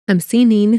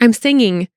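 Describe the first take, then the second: First: The last syllable ends with an 'een' sound. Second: The last syllable ends with an 'ing' sound. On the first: The speaker calls it wrong. "You don't say "seening."" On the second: The speaker calls it right. "everyone can say "ing.""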